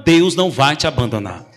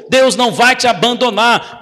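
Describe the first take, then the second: First: Lower, gentle Deus não vai te abandonar; calm reassurance. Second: Deus punched, the line pitched up and pressed; emphatic promise. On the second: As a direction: lean hard on Deus. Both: Real, not acted. Preacher repeats the promise twice.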